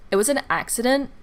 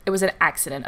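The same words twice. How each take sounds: First: Sassy quote with a rising end on an; snippy, rising on "an accident"; with attitude. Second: Sassy quote, lower, falling hard on an; dismissive and flat-ending, "an" falling; with attitude. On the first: Friend snapping at the angry customer, sassy rising tone. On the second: Friend brushing off the customer, curt falling attitude. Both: Retold or imitated. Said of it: "With attitude".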